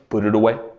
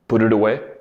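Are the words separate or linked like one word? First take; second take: linked; linked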